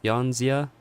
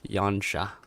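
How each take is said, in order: First: The middle consonant is a z sound. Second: The middle consonant is an sh sound.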